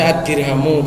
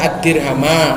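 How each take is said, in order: First: The word ends with a 'u' vowel. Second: The word ends with an 'a' vowel. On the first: The word is the subject of the sentence. "Bisa dibaca ad-dirhamu" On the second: The word is the object of an implied verb. "Ini bisa dibaca ad-dirhama"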